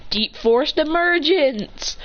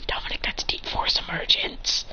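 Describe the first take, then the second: First: Slow, high dramatic announcement; drawn-out anime-style technique call; move call-out. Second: Hushed whispered aside; soft, voiceless whisper. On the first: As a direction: declare the attack name, drawn out. Dominic calls out his move. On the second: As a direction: whisper the move's name. Aside naming Dominic's move. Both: Acted.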